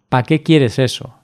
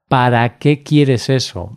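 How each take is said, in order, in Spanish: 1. La preposición se acorta a una sílaba. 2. La preposición se dice completa, en dos sílabas.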